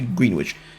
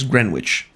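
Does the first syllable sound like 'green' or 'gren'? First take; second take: green; gren. First: The first syllable sounds like 'green'. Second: The first syllable sounds like 'gren'. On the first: "It says green in the name. It must be Greenwich" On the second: "Although I'm pretty sure it's Greenwich"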